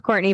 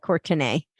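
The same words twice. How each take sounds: First: Said in the usual way. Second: "Courtenay" in three syllables, ending in "nay"; spelling pronunciation. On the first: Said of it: "it's pronounced Courtney". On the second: Shown as a demonstration. Guest helping listeners spell her website, "Courtenay" said as written. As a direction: sound out "Courtenay" as spelled, COR-tuh-nay. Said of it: "it's spelled like Courtenay".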